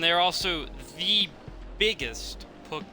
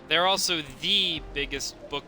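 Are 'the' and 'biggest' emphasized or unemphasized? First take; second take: emphasized; unemphasized. First: Strong emphasis falls on 'the' and 'biggest'. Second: No special emphasis on 'the' and 'biggest'. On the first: The speaker calls it wrong. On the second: The speaker calls it right.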